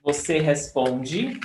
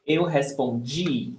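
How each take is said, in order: First: Responde with strong PON, light de; stress on PON. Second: Respondi ending on a long, strong DI; stress on final DI. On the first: Teacher repeating the present form, stress on PON. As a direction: put the weight mid-word in responde. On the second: Teacher repeating the past form, stress on final DI. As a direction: save the weight for the end of respondi. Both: Shown as a demonstration. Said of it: "The difference is in the stressed syllable".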